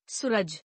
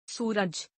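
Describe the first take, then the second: First: सूरज with short u, "suraj"; mispronounced. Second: Said in the usual way. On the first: Shown as a demonstration. Teacher showing a u error, mispronounced with short u. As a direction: clip the oo of सूरज. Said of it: "अनशुद्ध". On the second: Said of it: "शुद्ध".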